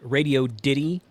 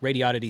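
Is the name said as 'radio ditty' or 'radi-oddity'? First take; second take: radio ditty; radi-oddity. First: The name is split as radio plus ditty. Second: The name is blended as radi plus oddity. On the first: Some other people say it this way. "Some people call it Radio Ditty" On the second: It flows more easily for the speaker. "flows off the tongue better for me"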